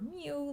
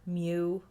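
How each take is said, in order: First: It is said like a cat's mewing sound. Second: It is said without a cat-like mewing sound. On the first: "like a little cat" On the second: "the Greek letter mu"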